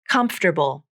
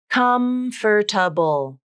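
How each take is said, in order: First: The word is said with three syllables. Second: The word is said with four syllables. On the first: The speaker calls it right. "It's three syllables" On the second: The speaker calls it wrong. "It looks like it should be four syllables"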